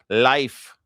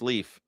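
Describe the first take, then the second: First: The name rhymes with the word life. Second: The name rhymes with the word leaf. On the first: This is how it is said in its home country. "Actually, it's pronounced life. I know. It, that's how they call it" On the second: This is how it is said in the United States. "but it's Leaf in the United States"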